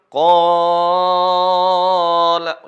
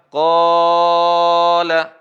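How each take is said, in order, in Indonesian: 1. Vokal panjang ditahan selama enam ketukan. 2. Vokal panjang ditahan selama empat ketukan. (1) "Kalau enam" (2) "Kalau empat harokat"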